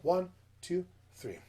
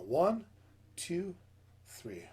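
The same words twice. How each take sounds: First: It is counted at a medium speed. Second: It is counted slowly.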